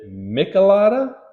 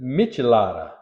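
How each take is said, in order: First: The word begins with a hard k sound. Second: The word begins with a soft ch sound. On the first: The speaker calls it wrong. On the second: The speaker calls it right.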